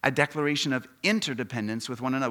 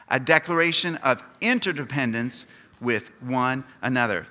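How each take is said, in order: First: Said in the usual way. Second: Louder, deliberate words for all to join; leading group recitation. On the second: Shown as a demonstration. Preacher asking the congregation to say it with him, loud and measured. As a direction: lead the room in saying it together, loudly. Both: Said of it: "Would you say that with me?".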